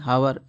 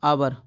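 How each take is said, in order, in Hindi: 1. यह शब्द h ध्वनि से शुरू होता है। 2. यह शब्द स्वर से शुरू होता है। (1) "ना कि हावर" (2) "इसे बोलते हैं अपन आवर"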